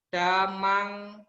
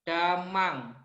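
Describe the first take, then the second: The two takes are said the same way.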